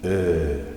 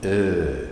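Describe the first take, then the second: First: The vowel is held long. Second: The same.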